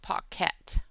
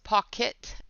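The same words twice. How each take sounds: First: The last syllable sounds like 'ket'. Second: The last syllable sounds like 'kit'. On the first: The speaker calls it wrong. "not K E T" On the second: The speaker calls it right. "like a kit"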